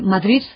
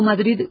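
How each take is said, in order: First: The final consonant is a th-like sound. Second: The final d is soft and relaxed. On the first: "y entonces es una interdental" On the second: "digo Madrid con una D relajada, que es lo correcto"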